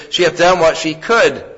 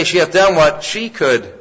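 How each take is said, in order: First: "could" lands as the peak, falling at the end; stress on could. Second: "done" is the strongest word, then the line falls; stress on done. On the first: Preacher shows the verse with weight on "could". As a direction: lean on the last word "could". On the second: Preacher shows the verse with weight on "done". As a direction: hit "done" hard and let "could" ease off. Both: Shown as a demonstration. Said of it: "You can put that emphasis anywhere".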